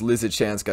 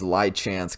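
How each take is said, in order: First: The 'sy' syllable is pronounced in the name. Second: The 'sy' syllable is left out of the name. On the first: The speaker calls it right. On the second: The speaker calls it wrong.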